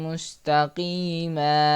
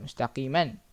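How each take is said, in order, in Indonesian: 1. Kata itu berakhir dengan vokal a panjang biasa. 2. Kata itu berakhir dengan bunyi 'an'. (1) "cara baca yang betul adalah suratan mustaqima" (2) "Jangan baca mustaqiman. Tak betul"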